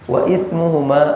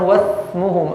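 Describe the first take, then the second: First: A glottal stop separates wa from ismuhuma. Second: The glottal stop drops and wa links straight in. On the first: The speaker calls it right. "I di sini hamzah qat'i" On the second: The speaker calls it wrong. "Kita nggak bisa mengatakan"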